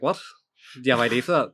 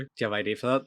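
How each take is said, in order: First: Louder, incredulous repeat of the question; indignant echo. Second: Said in the usual way. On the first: Acted. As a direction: throw the question back in mock outrage. Indignant customer repeats the question back.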